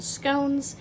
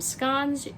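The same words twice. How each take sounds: First: The word is said a non-Scottish way. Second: The word is said the Scottish way. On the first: "You might pronounce them scones" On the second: "I'm Scottish. We pronounce them scones"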